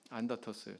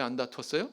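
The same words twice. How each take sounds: First: 안 다투었어요 answered with a falling end and softer voice; answering tune. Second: 안 다투었어요 asked with a rising end; questioning tune. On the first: Preacher answers his own question, soft falling answer. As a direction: drop 다투었어요 down as the firm answer. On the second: Preacher asks the congregation, rising question. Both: Shown as a demonstration.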